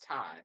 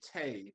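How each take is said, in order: First: The vowel sounds like the one in high. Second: The vowel sounds like the one in day. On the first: The speaker calls it right. "It's Ty" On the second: The speaker calls it wrong. "People say Tay"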